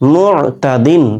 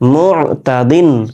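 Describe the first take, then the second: The two takes are said the same way.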